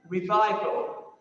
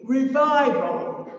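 First: Said in the usual way. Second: "revival" said louder and slowly, each syllable weighted; emphatic announcement. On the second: Shown as a demonstration. Preacher naming the fourth R to the congregation, emphatic and slow. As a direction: land hard on "revival" as the key word. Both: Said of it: "Fourth R from [name]'s sermon".

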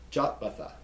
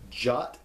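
First: Said in the usual way. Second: "Jotbatha" broken into jot, bath, ah; slow pieces with pauses on "Jotbatha"; syllable by syllable. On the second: Shown as a demonstration. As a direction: sound out each part of "Jotbatha" separately. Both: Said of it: "pronounce it slowly".

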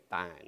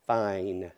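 First: "fine" with a Southern flattened vowel; low, soft Southern "fine"; old Southern accent. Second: "Fine" with a full long-i glide, drawn out; carefully over-pronounce "Fine" as fah-een; corrected, accent-free vowel. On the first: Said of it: "I'm gonna change it". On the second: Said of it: "I'm gonna say". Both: Shown as a demonstration.

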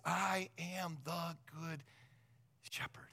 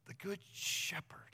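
First: Slow, measured reading of the verse; slow Bible quote. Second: Hushed echo to let it sink in; whispered echo. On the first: Pastor reads the verse to his congregation, slow and quiet. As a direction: let each word land slowly. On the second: Pastor echoes the verse to the congregation in a whisper. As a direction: whisper the good shepherd, rising on good. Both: Shown as a demonstration.

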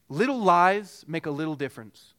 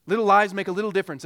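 First: Little stressed firmly at the start; stressed maxim. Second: Repeated much louder and quick, "lies" hit hard; louder fast repeat. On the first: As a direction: lean on the first "little". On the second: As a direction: punch it out again, louder and faster. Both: Shown as a demonstration.

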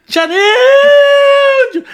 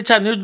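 First: Long, very high, loud holler; hammed-up scream stretched out on the name; retold exaggerated scream. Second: Said in the usual way. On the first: Injured nephew screaming down the phone to aunt, hammed-up wail. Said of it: "eu gritei assim". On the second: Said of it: "Quando eu gritei".

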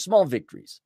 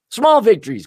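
First: Said in the usual way. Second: Loud, higher "Small victories" with a falling end; mock-triumphant. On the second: Real, not acted. To his viewers, a loud mock-triumphant "Small victories". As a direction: punch "Small victories" like a win.

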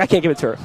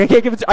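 First: Said in the usual way. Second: Higher and louder, a mock-upset protest; louder refusal. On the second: Refusing to carry the note for his crush, raised mock protest. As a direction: push it up, the kid getting worked up. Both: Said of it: "I'm like".

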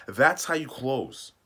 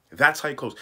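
First: Slow emphatic. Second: Louder punchy repeat. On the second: Coach driving the point home, louder. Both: Shown as a demonstration. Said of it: "That's how you close those guys".

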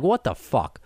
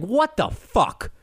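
First: Said in the usual way. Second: Exasperated. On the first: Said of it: "But now I'm just like". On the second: Retold or imitated. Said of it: "I'm just like".

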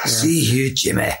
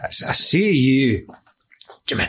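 First: Mock Connery accent at a brisker pace; horrific film accent. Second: Very drawn-out mock Connery accent; horrific film accent. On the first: Echoing co-host's First Knight joke, mock Connery accent. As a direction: send up the bad accent in a short burst. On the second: Asking Arthur what that was, drawn-out mock accent. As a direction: stretch out the bad accent, pausing before the name. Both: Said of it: "That one was horrific".

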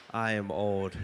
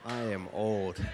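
Both takes have the same delivery.

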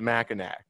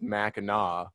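First: Mackinac said MACK-in-ack, with a hard k; as-spelled pronunciation. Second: Mackinac said MACK-in-aw, with a silent c; correct pronunciation. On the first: Explaining what newcomers say, Mackinac pronounced "nack". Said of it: "is gonna pronounce it". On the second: Explaining an inside joke, Mackinac pronounced "Mackinaw". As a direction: end Mackinac on an open "naw", no k. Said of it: "that that is pronounced". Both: Shown as a demonstration.

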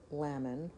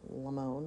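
First: Lamon as LAM-un, stress up front; first pronunciation attempt. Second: Lamone as la-MOAN, long final o; second pronunciation attempt. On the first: Unsure of a surname, trying Lamon as LAM-un. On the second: Correcting a guess at a surname, softly trying Lamone as la-MOAN. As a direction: say Lamone quieter, ending like "moan". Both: Shown as a demonstration. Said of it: "not sure how to pronounce that".

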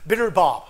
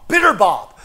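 First: Said in the usual way. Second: Bitter said louder and punched; louder, emphatic Bitter Bob; stress on Bitter. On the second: Shown as a demonstration. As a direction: land hard on Bitter. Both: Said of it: "we'll just call him Bitter".

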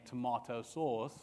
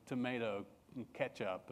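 First: "tomato" said the English way, to-MAH-to, broad ah vowel; British tomato. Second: "tomato" said the American way, to-MAY-to. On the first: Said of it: "instead of saying tomato sauce". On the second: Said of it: "we would say". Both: Retold or imitated.

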